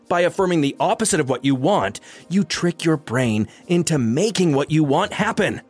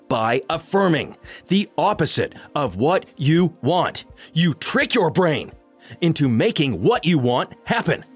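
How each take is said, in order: First: It is said at normal speed. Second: It is said slowly and deliberately.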